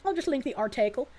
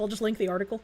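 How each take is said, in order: First: "article" said as "ar-TAY-kul"; joking "ar-tay-kul" for "article"; playful mispronunciation. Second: Said in the usual way. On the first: Pretend. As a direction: put a long "ay" in the middle of "article". Repeats it with odd article vowel.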